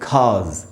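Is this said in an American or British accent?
British. The r is dropped and the s sounds like z. "British में पढ़ेंगे खाज"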